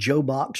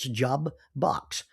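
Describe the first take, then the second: First: The first part is said as 'Joe'. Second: It is said as 'Job' then 'Box'. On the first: The speaker calls it wrong. "It's not Joe Box" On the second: The speaker calls it right. "it's Job Box"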